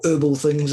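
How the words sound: It is said in an American accent.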